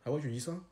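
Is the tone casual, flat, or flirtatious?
casual. It is said in a plain, casual, matter-of-fact way. "entre potes, quand on les utilise"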